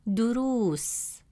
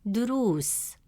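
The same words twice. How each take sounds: Both takes have the same delivery.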